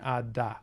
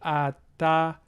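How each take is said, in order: First: The middle consonant is voiced, like a d. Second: The middle consonant is voiceless, like a t. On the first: "that voicing persisting all the way through" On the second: "So ah ta"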